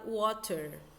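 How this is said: It is said in a British accent. "No Reino Unido é falado water"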